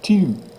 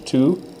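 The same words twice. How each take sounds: First: The vowel is a rounded French u sound. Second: The vowel is an English oo sound. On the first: The speaker calls it right. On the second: The speaker calls it wrong.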